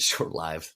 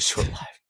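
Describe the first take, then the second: First: The vowel in 'lived' is not the 'live' vowel. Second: The vowel in 'lived' is the 'live' vowel. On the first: The speaker calls it right. "That's the right that's the right way to say it" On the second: The speaker calls it wrong. "Doesn't say live"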